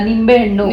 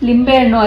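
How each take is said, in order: First: The first word begins with an N sound. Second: The first word begins with an L sound. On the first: The speaker calls it right. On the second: The speaker calls it wrong. "ಲಿಂಬೆ ಹಣ್ಣು ಅಲ್ಲ"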